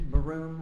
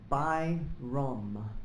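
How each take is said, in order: First: The name begins with a 'ba' sound. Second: The name begins with a 'by' sound. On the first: The speaker calls it wrong. "most people mispronounce it, and they say, like" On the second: The speaker calls it right. "It's Byrom, B Y R O M"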